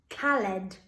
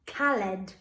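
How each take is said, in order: First: Each letter is sounded, with a short 'al'. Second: The same.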